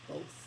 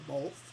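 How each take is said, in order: First: The word is said without any L sound. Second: The word is said with an added L sound. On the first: The speaker calls it right. "it is both without an L" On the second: The speaker calls it wrong. "I have added the L into both before"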